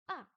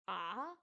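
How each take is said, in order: First: It is said with the fourth, falling tone. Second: It is said with the third, dipping tone. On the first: "quatrième c'est A. C'est celui qui descend" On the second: "troisième temps c'est A"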